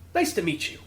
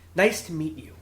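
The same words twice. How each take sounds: First: The pitch varies, with some liveliness. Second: The pitch stays flat and even throughout. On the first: The speaker calls it wrong. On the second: The speaker calls it right.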